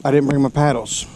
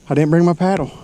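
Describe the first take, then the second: First: Frustrated. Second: Higher, exasperated disbelief; realizing the mistake, exasperated; frustrated. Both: Real, not acted. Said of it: "I am so freaking frustrated right now".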